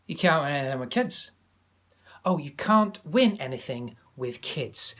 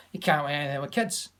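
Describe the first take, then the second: First: Alan Hansen Scottish. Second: Light Scottish pundit voice; a mild Scottish pundit impression, words run together; Alan Hansen Scottish. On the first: Retold or imitated. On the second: Teacher imitating a TV football pundit in a light Scottish accent. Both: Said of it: "Example, Alan Hansen".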